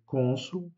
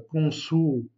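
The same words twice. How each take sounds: First: Consul stressed on a closed O, slow; consul, closed O stressed, slowly; consul, the right Portuguese way; correct pronunciation. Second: Consul with the stress on the wrong syllabe; consul, the way not to say it; wrong pronunciation. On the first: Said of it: "mais consul, donc l'accentuation est faite sur le O". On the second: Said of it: "on ne dit pas". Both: Shown as a demonstration.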